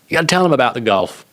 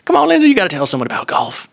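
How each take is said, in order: First: Said in the usual way. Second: Put-on broad Southern accent, much higher and fast; hammed-up Southern coaxing, voice pushed up high; mock Southern pleading in a raised voice. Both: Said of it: "I'll probably bust out the Southern accent".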